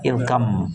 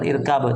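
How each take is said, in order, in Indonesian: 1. Huruf b melebur menjadi m, sehingga menjadi irkam. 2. Huruf b dibaca jelas, sehingga menjadi irkab. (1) "Kita baca irkam" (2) "bukan irkab"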